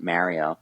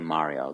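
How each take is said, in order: First: It is said with an American accent. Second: It is said with an Italian accent. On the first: "pronounced it with an American accent" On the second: "like the authentic Italian accent"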